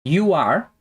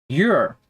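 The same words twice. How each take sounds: First: "You are" as two separate words, rising; full form. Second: "you're" run into one syllable, falling; contracted form. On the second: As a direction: merge it into a single "you're". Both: Shown as a demonstration. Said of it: "podemos falar também é sobre as contrações".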